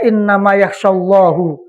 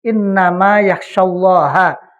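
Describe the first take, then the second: First: Allah ends with a 'u' vowel. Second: Allah ends with an 'a' vowel. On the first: God fears the scholars. The speaker calls it wrong. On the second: Only the scholars fear God. The speaker calls it right.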